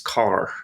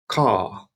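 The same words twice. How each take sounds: First: The word ends with a hard R sound. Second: The word ends in a long vowel, no R. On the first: "In Irish English, this word here, I would pronounce as car with a hard sort of R sound on the end" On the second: "You don't really hear the R on the end, but rather a long vowel sound"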